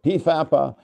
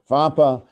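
First: It starts with a P sound before the F. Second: It starts directly with an F sound. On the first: "other people pronounce it PFAPA" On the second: "some people pronounce it FAPA"

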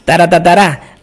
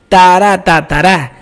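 First: It is said a little faster. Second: It is said at a moderate pace.

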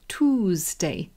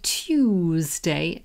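First: The word begins with a 'too' sound. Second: The word begins with a 'tyoo' sound. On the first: This is the American way of saying it. "they say Toosday" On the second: This is how the speaker's own community says it. "So we say Tuesday"

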